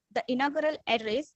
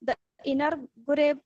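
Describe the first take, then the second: First: Inaugural said carefully as "in-aw-gur-al"; corrected word. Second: Inaugural slurred as "in-er-gur-ay"; mispronounced word. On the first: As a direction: correct inaugural, saying each syllable. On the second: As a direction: stumble over inaugural, dropping the ending. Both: Real, not acted. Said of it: "uh, sorry".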